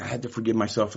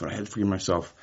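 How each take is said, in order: First: Mock the cliché, hitting "myself"; lightly imitated self-help phrase, weight on "myself"; stress on myself. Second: "forgive" stressed with a falling tune; lightly mocking repeat, weight on "forgive". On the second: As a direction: repeat it, now landing on "forgive". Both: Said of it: "a lot of people are like".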